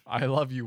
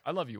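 First: It is said in a flat, detached tone. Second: It is said in a teasing, playful tone. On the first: He sounds emotionally disconnected, like an alien. "But he just says it like" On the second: A joking, affectionate jab at the relationship. "say it sarcastically, like, right"

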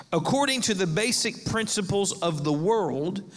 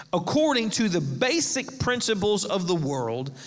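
Both takes have the same delivery.

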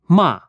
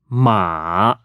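First: The pitch falls sharply from high to low. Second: The pitch dips low and then rises. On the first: It means scold. "The falling tone is similar to saying stop in a commanding way" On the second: It means horse. "the only tone which goes in two directions. It starts downward to the low range, then rises"

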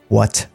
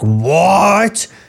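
First: It is said quietly and subdued. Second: It is shouted loudly.

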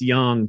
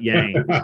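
First: Yang has a Chinese-style pronunciation. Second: Yang has a Southern American pronunciation. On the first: The speaker calls it right. "corrected me and said it's yang" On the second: The speaker calls it wrong. "It's not yang"

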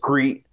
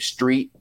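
First: The word begins with an 'skr' cluster. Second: The word begins with an 'str' cluster. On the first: "There's no S-T-R. It's all S-C" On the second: "She can't say street"

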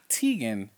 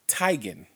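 First: The first syllable does not rhyme with 'tie'. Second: The first syllable rhymes with 'tie'. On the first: The speaker calls it wrong. "is not Teigen" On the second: The speaker calls it right. "it's Teigen. Like bow tie"

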